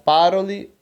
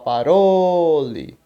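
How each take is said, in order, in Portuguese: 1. A tônica cai em outra sílaba, não na do meio. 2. A tônica cai na sílaba do meio. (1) "e não par, parole" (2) "o a tônica da palavra vai ser o ró. Então você vai falar parole"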